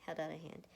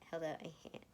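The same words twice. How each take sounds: The two takes are said the same way.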